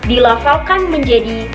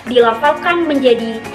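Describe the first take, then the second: The two takes are said the same way.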